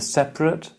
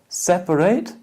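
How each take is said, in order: First: It has two syllables with a weak last vowel. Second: It has three syllables with a full last vowel. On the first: It is the adjective. "It's a schwa" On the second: It is the verb. "How many syllables in the verb?"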